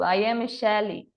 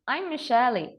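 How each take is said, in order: First: I am is said as two full words. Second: I am is contracted into one syllable.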